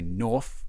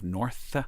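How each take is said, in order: First: The final th is pronounced as an f. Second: The final th is pronounced as th. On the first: "what they call th fronting, where you say north" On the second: "instead of north"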